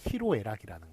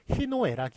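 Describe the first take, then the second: First: The second syllable begins with an r sound. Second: The second syllable begins with an n sound. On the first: The speaker calls it right. "로라고" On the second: The speaker calls it wrong. "희노애락이 아니라"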